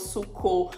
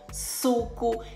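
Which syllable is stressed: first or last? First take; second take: last; first. First: The stress falls on the last syllable. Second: The stress falls on the first syllable. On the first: The speaker calls it wrong. "acento lexical inadequado" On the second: The speaker calls it right. "diferença da sílaba tônica e átona"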